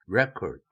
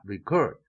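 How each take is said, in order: First: The stress is on the first syllable. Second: The stress is on the second syllable. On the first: It is used as a noun. "명사 단어에는 첫 음절에 강세가 오고" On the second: It is used as a verb. "동사 단어에는 첫 음절에 강세가 오지 않습니다"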